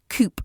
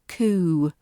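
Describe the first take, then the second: First: A p sound is pronounced at the end. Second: No p sound is pronounced at the end. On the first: The speaker calls it wrong. "That's how you think it should be said" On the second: The speaker calls it right. "We drop that p sound"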